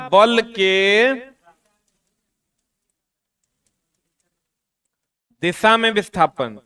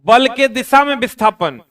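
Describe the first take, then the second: First: Very slow, word by word for notes; slow dictation. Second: Louder, stressing बल के दिशा में विस्थापन; emphatic heading. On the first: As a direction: dictate so the class can write it down. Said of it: "teacher dictates heading for notes". (धीरे-धीरे लिखवाते हुए) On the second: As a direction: announce the heading firmly to the class. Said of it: "teacher states heading before dictating". (ज़ोर देकर शीर्षक बोलना) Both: Shown as a demonstration.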